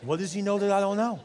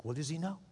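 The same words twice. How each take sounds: First: Mock freaking out. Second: Shocked aside. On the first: Guilty husband panics at the preacher's words, mildly freaked out. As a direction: let the retold alarm spill out. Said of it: "He was freaking out". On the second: Retold or imitated. Guilty husband hears the preacher's warning, hushed shock. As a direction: murmur it to yourself in shock. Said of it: "he was shocked".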